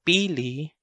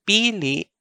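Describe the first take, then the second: First: Pili with last vowel open and rising; open final vowel. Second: Pili higher, last vowel stopped short; stopped final vowel. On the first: Teacher giving example sentence, pili the nut, open ending. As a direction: leave the end of pili unstopped. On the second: Teacher giving example sentence, pili meaning choose, with a stop. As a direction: cut pili off on LI. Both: Shown as a demonstration. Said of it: "Example sentence for the two words".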